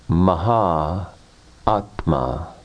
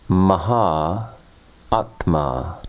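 No difference in how they are said.

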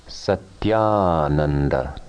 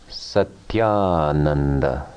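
Both takes have the same delivery.

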